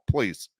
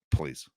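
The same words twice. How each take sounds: First: Said in the usual way. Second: Softer, lower, trailing off; quiet, dismissive please. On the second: Real, not acted. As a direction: let it fade out under your breath.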